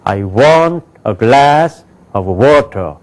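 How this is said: Content words are loud; function words are barely heard.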